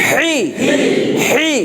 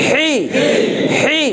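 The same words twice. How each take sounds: No difference in how they are said.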